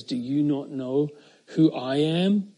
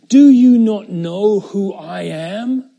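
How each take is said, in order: First: Jesus' quiet answer. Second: Louder, slow, commanding; Pilate's authority. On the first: Jesus answers Pilate calmly and quietly. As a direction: turn the question back gently. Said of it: "Jesus responds and says". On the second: Pilate reminds Jesus of his authority, loud and slow. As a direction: pull rank on the silent prisoner. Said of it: "So Pilate reminded him". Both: Acted.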